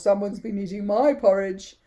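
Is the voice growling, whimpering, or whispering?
growling. It is said in a deep growl.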